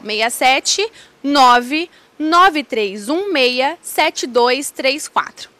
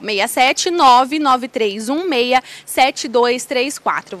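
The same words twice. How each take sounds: First: The number is read slowly. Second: The number is read at normal speed.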